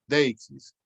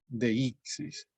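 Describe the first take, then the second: First: Deixis said as DEI-xis, stress on the dei glide; two-syllable deixis. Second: Deixis said as de-í-xis, stress on the í; three-syllable deixis. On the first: Teacher contrasting for class the accentless DEI-xis. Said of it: "que lo pronuncien deixis". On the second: Teacher showing students deixis as de-í-xis. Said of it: "así es como estamos pronunciando". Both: Shown as a demonstration.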